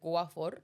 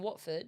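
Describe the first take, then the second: First: The t and d sounds are dropped or softened. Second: The t and d sounds are clearly pronounced. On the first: "she pronounces it Guafor" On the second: "My grandma lives in Watford"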